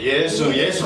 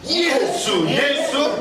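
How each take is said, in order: First: It is said weakly and half-heartedly. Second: It is said strongly and forcefully. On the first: The faith slips away again. The speaker calls it wrong. "현찮게" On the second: The faith is eager and active. The speaker calls it right. "더 강하게"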